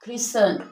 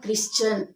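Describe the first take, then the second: First: The T sound is silent in the middle. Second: The T sound is pronounced in the middle. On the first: The speaker calls it right. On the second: The speaker calls it wrong.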